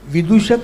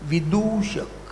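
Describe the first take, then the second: First: The middle u vowel is short. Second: The middle u vowel is long. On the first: The speaker calls it wrong. "विदूषक नाही" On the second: The speaker calls it right. "तू दीर्घ आहे त्यातला, स्वरस्व नाही आहे तो, दीर्घ उच्चार"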